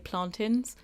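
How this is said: The word is said with Jamaican pronunciation. The speaker's family comes from Jamaica. "If you're from Jamaica, you say plantains"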